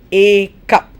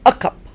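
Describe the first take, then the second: First: The article has a full, strong vowel. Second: The article has a reduced, weak vowel. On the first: The speaker calls it wrong. "I don't say a cup" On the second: The speaker calls it right. "I say a cup"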